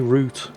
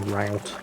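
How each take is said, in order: First: The word is said the British way. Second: The word is said the American way. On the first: "and we say route" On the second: "Americans watching, I know you say route"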